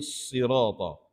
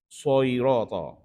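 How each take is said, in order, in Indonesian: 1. Vokal pertama adalah i biasa, tidak dibulatkan. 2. Vokal pertama dibulatkan ke arah o. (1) "Jadi sirata" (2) "Jangan bunyi soirata"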